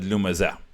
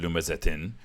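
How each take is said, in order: First: The word ends on a vowel, without -tin. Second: The word ends with a -tin sound. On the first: The reciter stops at the end of the verse. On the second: The reciter continues into the next verse.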